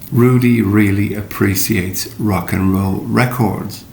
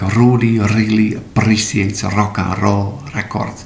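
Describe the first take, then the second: First: The R sounds are made with the tongue curled back. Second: The R sounds are trilled with the tongue tip. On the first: The speaker calls it right. "you pull back your tongue a little, er, and uh, it should sound like" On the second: The speaker calls it wrong. "if you said this with an Indonesian or typically Indonesian accent"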